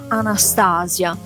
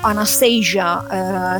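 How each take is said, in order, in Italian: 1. Il nome si pronuncia all'italiana. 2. Il nome si pronuncia all'inglese.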